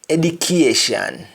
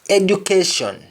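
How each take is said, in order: First: It is said in a Jamaican accent. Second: It is said in a standard English accent.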